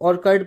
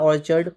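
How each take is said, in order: First: The middle consonant is a k sound. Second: The middle consonant is a ch sound. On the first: "ऑर्कार्ड पढ़ता हूँ मैं" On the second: "या ऑर्चर्ड पता नहीं मुझे"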